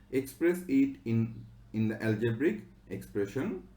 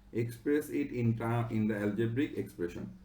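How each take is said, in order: The two takes are said the same way.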